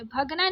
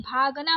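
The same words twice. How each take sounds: First: भगना with a short first a; wrong short first vowel. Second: भागना with a long bhaa; correct long first vowel. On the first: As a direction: say भगना as "bhug-naa". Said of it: "भगना नहीं". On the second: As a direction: say भागना as "bhaag-naa". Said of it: "भागना होता है". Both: Shown as a demonstration.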